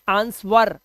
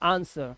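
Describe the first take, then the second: First: The W is sounded in the word. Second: The W is silent in the word. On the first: The speaker calls it wrong. "we cannot say answer" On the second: The speaker calls it right. "we say answer"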